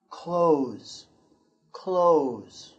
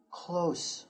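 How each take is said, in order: First: 'close' ending in a buzzing z; 'close' as the verb, final z; corrected take, voiced z. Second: 'close' ending with a hissed s; 'close' with an s, like the adjective; wrong take, unvoiced s. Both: Shown as a demonstration. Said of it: "or excuse me".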